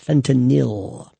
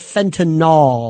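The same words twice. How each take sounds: First: The ending sounds like Benadryl's ending. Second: The ending does not sound like Benadryl's ending. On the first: The speaker calls it right. "Y L, like Benadryl" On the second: The speaker calls it wrong. "not fentanyl"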